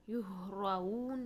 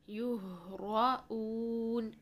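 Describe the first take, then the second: First: The glottal stop is soft, so 'oon' blends in. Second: A firm glottal stop sets 'oon' apart. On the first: The speaker calls it wrong. "नहीं करना है" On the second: The speaker calls it right. "हमजा को सख्ती से अदा करें, ऊन अलग से आवाज़ को रखना है"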